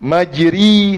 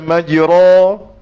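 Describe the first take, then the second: First: The vowel after r is a full i. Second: The vowel after r is a full open a. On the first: "tak betul" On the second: "tak betul"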